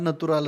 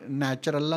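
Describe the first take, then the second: First: The middle consonant is a t sound. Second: The middle consonant is a ch sound. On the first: "तिकडे नॅचरलला नतुराल असा उच्चार केला जातो"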